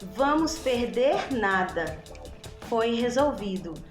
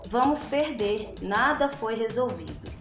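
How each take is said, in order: First: The pause comes right after the word nada. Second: The pause comes right after the word perder. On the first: We will lose nothing because it was solved. "a mesma frase com a vírgula trocada de lugar" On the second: We will lose because nothing was solved. "a vírgula está depois do verbo perder"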